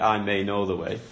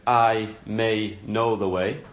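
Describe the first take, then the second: First: Said in the usual way. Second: "I may know the way" said slowly, I rising as if unsure; doubtful maybe. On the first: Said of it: "But what he actually says is". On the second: Shown as a demonstration. Preacher mocking a hesitant claim, slow and unsure. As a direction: stress on I with doubtful rise, slow. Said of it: "that doesn't fill us with confidence".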